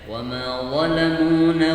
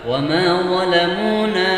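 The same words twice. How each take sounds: First: The vowel after 'zal' is clipped short. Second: The vowel after 'zal' is held for two beats. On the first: The speaker calls it wrong. "sering membacanya pendek" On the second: The speaker calls it right. "dua kali mengetuk atau dibaca mat"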